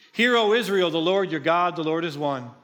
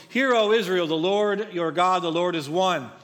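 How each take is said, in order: No difference in how they are said.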